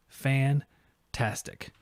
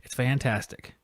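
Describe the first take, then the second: First: Fantastic stretched out very slowly; a slow, satisfied Fantastic; slow drawn-out fantastic. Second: Said in the usual way. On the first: Real, not acted. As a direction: draw out Fantastic, savoring each syllable.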